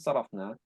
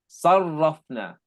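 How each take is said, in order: First: The r sound is short and single. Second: The r sound is doubled and held. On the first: The speaker calls it wrong. "Not صرفنا" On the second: The speaker calls it right. "باب تفعيل"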